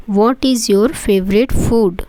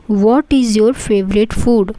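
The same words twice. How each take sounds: The two takes are said the same way.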